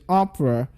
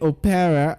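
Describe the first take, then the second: First: The middle vowel is dropped, giving two syllables. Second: The middle vowel is pronounced, giving three syllables. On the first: The speaker calls it right. "the letter E in that word is silent" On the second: The speaker calls it wrong. "most people say opera, but that's wrong"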